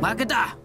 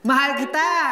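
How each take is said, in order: First: It is said in an angry tone. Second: It is said in a happy tone.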